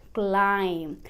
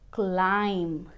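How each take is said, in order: Both takes have the same delivery.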